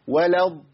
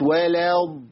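First: The vowel before the d sound is short. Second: A long vowel comes before the d sound. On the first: The speaker calls it right. "بقول ايه؟ ولض" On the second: The speaker calls it wrong. "لو قلت ولض يبقى انا جبت الف زائد"

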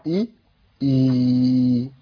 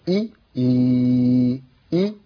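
No difference in how they are said.

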